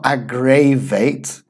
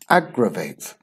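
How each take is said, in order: First: The unstressed vowels are said as full vowels. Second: The unstressed vowels are reduced to schwa. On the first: The speaker calls it wrong. "It's not aggravate" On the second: The speaker calls it right. "We actually have two of those sounds"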